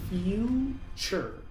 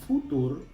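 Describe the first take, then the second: First: The T sounds like 'ch'. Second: The T is a plain T sound. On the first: The speaker calls it right. "la T se pronuncia como T C H" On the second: The speaker calls it wrong. "Muchos pronuncian esta palabra futur"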